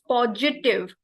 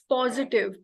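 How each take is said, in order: First: The middle consonant is a j-like sound. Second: The middle consonant is a plain s-like sound. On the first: The speaker calls it wrong. "she used positive. It's it's not j, there is no g sound" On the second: The speaker calls it right. "it's positive"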